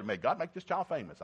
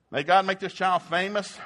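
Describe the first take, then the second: First: Said in the usual way. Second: Louder and higher, a proud blessing; proud proclamation. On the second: Shown as a demonstration. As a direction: proclaim it over the baby with pride. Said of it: "That's a strange thing".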